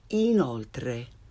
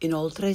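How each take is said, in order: First: The i vowel is tense, like English 'ee'. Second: The i vowel is lax, like English 'ih'. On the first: The speaker calls it right. "say inoltre" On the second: The speaker calls it wrong. "And instead of inoltre"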